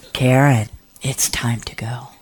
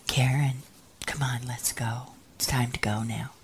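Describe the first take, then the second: First: Low, firm call, then softening; insist, then ease off gently; mildly stern retold summons. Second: Soft, low, half-whispered urging; hushed retold summons; gentle coaxing. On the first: Acted repeated summons, firmer. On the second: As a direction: coax her away quietly. Acted gentle summons in story.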